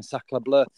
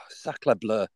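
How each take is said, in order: First: Retold French exclamation, lightly accented; french chef. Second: Sighed, whispered mock French exclamation; french chef. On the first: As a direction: toss it off in a hint of French accent. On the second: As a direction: breathe it out in a jokey French accent. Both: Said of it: "I had sacre bleu Tourette's".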